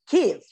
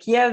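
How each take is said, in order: First: The name is said with the Ukrainian pronunciation. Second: The name is said with the Russian pronunciation. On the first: It shows solidarity with Ukrainians. "to show solidarity with the Ukrainians" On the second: It follows the Russian form of the name. "that was the Russian pronunciation"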